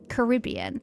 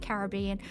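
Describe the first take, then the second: First: It is said the American way. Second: It is said the non-American way. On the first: The speaker calls it wrong. "Or if you're American" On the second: The speaker calls it right. "my pronunciation is correct, obviously. So let's say"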